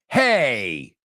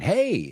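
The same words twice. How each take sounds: First: It is said indignantly, like an objection. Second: It is said warmly as a casual greeting. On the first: The speaker means wait a second. "expressing indignation" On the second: The speaker is greeting someone. "same word, totally different intonation"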